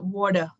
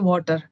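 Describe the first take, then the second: First: It is said in an American English accent. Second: It is said in an Indian English accent. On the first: "American they say water" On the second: "In India we say water"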